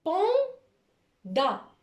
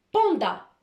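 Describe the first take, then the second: First: Panda in two drawn-out, separated syllables, high; split into syllables. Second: Said in the usual way. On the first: Shown as a demonstration. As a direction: pause between pan and da. Teacher dictates a word by syllables.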